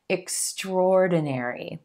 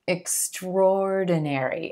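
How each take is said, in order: No difference in how they are said.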